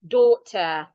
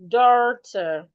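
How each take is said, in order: First: The vowel is said the British way. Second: The vowel is said the American way. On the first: "the British articulate it as oh" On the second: "Americans will say"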